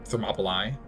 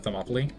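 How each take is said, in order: First: The name is said carefully in a fuller form. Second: The name is said quickly in a casual form. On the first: The speaker calls it right. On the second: The speaker calls it wrong.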